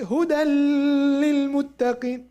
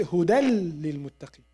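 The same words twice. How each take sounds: First: هدى للمتقين with the nun sounded, not merged; wrong reading. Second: هدى للمتقين with the nun merged into the lam, huda lil; correct reading. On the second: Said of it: "We say". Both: Shown as a demonstration.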